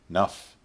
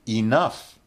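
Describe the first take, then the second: First: It is said in its most reduced form. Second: It is said in its full, careful form. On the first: "the least formal" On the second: "the most formal"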